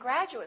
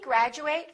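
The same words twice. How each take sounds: First: The final syllable has a weak, reduced vowel. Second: The final syllable has a full 'ate' vowel. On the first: It is used as an adjective. "if it's a noun or an adjective, we reduce this ate" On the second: It is used as a verb. "if it's a verb, we say ate"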